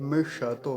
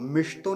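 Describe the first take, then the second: First: The sh is said in full with a vowel. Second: The sh is joined directly to the t. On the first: The speaker calls it right. "श को पूरा ही रखेंगे" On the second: The speaker calls it wrong. "मिष्तो नहीं कहेंगे"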